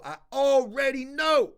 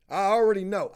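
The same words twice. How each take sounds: First: ALREADY KNOW drawn out slowly and pitched high; slow, raised, insistent "already know"; emphatic repeat. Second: Said in the usual way. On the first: Real, not acted.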